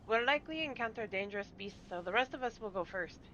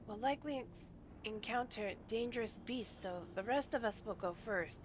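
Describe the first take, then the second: First: It is spoken in another character's voice. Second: It is spoken in Gulool Ja's voice.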